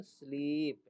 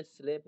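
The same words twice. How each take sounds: First: स्लीप with a drawn-out ee; long-ee vowel. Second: स्लेप with an eh sound; wrong eh vowel. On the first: Teacher answering own question to class, स्लीप with long ee. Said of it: "वो ई से होता है". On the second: Teacher warning against a misreading, स्लेप with eh. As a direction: say स्लेप with eh instead of ee. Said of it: "यहाँ पे स्लेप नहीं पढ़ेंगे". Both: Shown as a demonstration.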